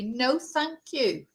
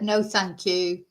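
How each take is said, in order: First: Slow, pointedly polite no thank you; polite refusal. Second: Said in the usual way. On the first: Retold or imitated. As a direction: stress the politeness, slowly. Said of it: "I said to you politely". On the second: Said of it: "I said".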